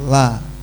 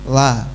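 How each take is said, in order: Both takes have the same delivery.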